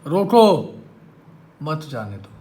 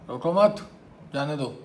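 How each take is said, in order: First: The pause comes after 'roko'. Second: The pause comes after 'mat'.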